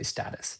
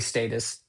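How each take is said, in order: First: The word is said the American way. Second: The word is said the British way. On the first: "most Americans would say status" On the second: "Brits say status"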